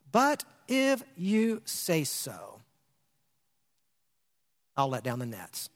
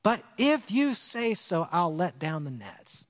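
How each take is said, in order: First: Slow, soft, giving in; drawn out, then dropping low and soft; reluctant surrender. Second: Slow, stressing the word if; emphatic repeat. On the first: Retold or imitated. Simon yielding to Jesus, slow and quiet. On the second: Shown as a demonstration. Preacher underlining Simon's words, slow and stressed. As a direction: lean on if, then let it settle. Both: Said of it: "underline that statement".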